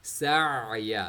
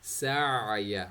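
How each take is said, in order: First: A held sound from the middle throat. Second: The same.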